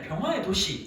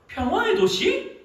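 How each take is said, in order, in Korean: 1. 단호한 느낌표처럼 끝을 내리면서 끝나요. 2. 빈정거리는 물음처럼 끝을 올리면서 끝나요. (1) "끝에 느낌표가 붙어서 아 그래 평화의 도시 이런 느낌" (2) "뒤에 물음표가 딱 붙어서"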